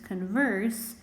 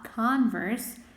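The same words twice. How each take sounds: First: The stress is on the second syllable. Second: The stress is on the first syllable.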